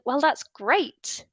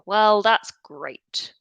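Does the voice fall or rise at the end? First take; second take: rise; fall. First: The pitch rises at the end. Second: The pitch falls at the end. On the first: The speaker is genuinely pleased and excited. "it's rising. So my the attitude I'm expressing with that intonation is quite positive. Um, maybe excitement" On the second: The speaker is being sarcastic and is not pleased. "it's falling. So there, my attitude is um, displaying more almost sarcasm"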